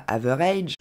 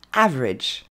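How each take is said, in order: First: AVERAGE in three syllables ending "raydge"; over-pronounce the last syllable of AVERAGE; wrong pronunciation. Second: AVERAGE in two syllables, "AV-redge"; correct English pronunciation. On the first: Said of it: "ne se dit pas". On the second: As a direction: punch AV, short "redge" in AVERAGE. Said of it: "mais se dit". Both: Shown as a demonstration.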